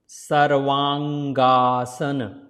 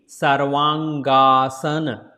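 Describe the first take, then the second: Both takes have the same delivery.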